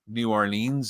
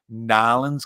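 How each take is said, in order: First: The city name is said the outsider way. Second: The city name is said the local way. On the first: The speaker is not from the city. The speaker calls it wrong. "You can tell I'm not from New Orleans because I say New Orleans" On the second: This is how locals say it. The speaker calls it right. "and I don't say Nolans"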